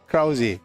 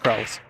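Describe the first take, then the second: First: The name ends with an extra vowel sound. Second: The name ends without an extra vowel sound. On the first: "It's got an E on the end, so it's Krause" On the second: "you could pronounce it just Krause"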